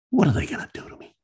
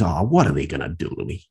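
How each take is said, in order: First: Repeated much higher and faster. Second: Said in the usual way. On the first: Retold or imitated. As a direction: rush the repeat up high.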